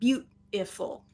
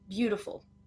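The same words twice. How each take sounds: First: The middle T is a stopped, held T sound. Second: The middle T is a quick soft D sound. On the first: The speaker calls it wrong. "So it's not beautiful. It's not a stop T in this word" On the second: The speaker calls it right. "It's a flap T, which sounds more like a soft D"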